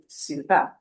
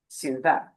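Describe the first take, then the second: First: The stress is on the last syllable. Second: The same.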